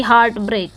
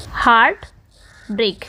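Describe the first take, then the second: First: Said in the usual way. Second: heart and break as two separate beats, long pause between; both syllables stressed. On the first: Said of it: "दोनों पे ही क्या है". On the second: Shown as a demonstration. Teacher showing students a spondee, both words stressed separately. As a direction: give heart and break each its own stress, split apart. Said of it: "stress हो रहा है बोलने में".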